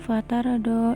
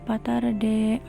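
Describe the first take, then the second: First: The final vowel sounds like 'a'. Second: The final vowel sounds like 'e'.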